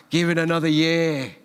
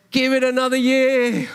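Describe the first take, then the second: First: Said in the usual way. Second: High, loud, joyful plea; gardener's plea said with elated joy; delighted plea. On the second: Acted. Gardener pleads, preacher delighted.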